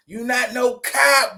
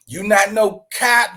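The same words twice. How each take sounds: First: "You not no cop" shouted slowly and a bit higher; mock shouted taunt. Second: Said in the usual way. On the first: Host calling out the rapper in a slow mock shout. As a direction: yell the taunt slowly, drawing each word out.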